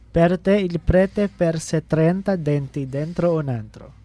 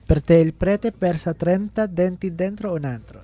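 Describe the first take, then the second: First: The sentence is said more slowly. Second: The sentence is said more quickly.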